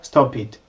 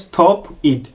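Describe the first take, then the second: First: The p links into it, like stop pit. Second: The two words are said separately. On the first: The speaker calls it right. "Turavuga stop it" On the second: The speaker calls it wrong. "Ntabwo turi buvuge stop it"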